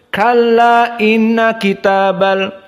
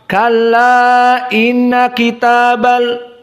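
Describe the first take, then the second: First: The vowel before inna is held two counts. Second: The vowel before inna is held four counts. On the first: "cukup dengan dua" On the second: "Maka jumhur dibaca empat"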